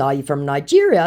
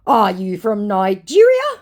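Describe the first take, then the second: First: Said in the usual way. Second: "Are you from Nigeria?" rising high and loud; emphatic question. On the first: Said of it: "And in response to". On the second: Acted. Scammer quizzing the host, "Are you from Nigeria?" as an emphatic question. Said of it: "Three question marks".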